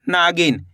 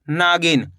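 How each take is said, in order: First: नागिन with the ना drawn out long; teacher stretching the ना in नागिन; stretched first syllable. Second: Said in the usual way. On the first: Shown as a demonstration. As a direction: pull out the ना of नागिन slowly. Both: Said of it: "ना का उच्चारण खींच को रहा देखो".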